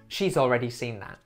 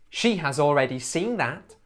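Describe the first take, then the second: First: The word 'has' is contracted onto 'she'. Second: The word 'has' is said in full. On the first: The speaker calls it right. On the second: The speaker calls it wrong. "We also rarely say have, has, or had"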